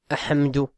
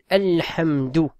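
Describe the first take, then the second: First: The L sound before the h is dropped. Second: The L sound before the h is pronounced. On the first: The speaker calls it wrong. "on dit pas ahamdou" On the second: The speaker calls it right. "On dit alhamdou"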